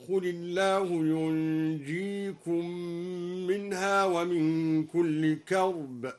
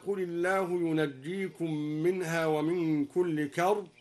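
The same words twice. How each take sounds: First: "ينجيكم" as yunjikum, silent nun, single jim; al-Duri reading. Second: "ينجيكم" with doubled jim, yunajjikum; standard recitation. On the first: Teacher demonstrates al-Duri's lighter jim, slow tarteel. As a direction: slowly say yunjikum. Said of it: "هكذا". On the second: Teacher quoting the standard reading, plain chant. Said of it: "بإسكان النون وتخفيف الجيم". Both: Shown as a demonstration.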